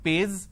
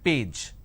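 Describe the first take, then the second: First: The word ends with a 'z' sound. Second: The word ends with a 'j' sound. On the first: The speaker calls it wrong. "people replace the j with a z" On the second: The speaker calls it right. "it is page"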